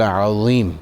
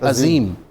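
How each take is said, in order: First: The z sound is heavy and emphatic. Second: The z sound is light and plain. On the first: The word means great or mighty. The speaker calls it right. "अब यहाँ पर ज़ा है" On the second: The meaning becomes the exact opposite. The speaker calls it wrong. "अक्सरियत इसको पढ़ती है अजीम, वो होता है ज़ाल या जे से।"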